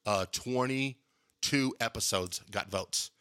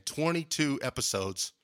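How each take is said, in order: First: Said in the usual way. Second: "Twenty-two episodes" repeated slowly, with "twenty-two" lifted in amazement; stress on twenty-two. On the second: Shown as a demonstration. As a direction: lean on "twenty-two" as if you can't believe it. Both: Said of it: "So that's crazy".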